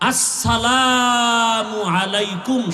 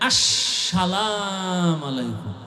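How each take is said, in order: First: The greeting is said in full, with 'salamu'. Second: The greeting is clipped, dropping the 'u' sound. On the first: This is the proper way to greet. The speaker calls it right. "শুধু এই দুইটা শব্দ, এটা পারে না" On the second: The speaker is showing off a stylish manner. The speaker calls it wrong. "আর একজনে আবার স্টাইল করে দেয়"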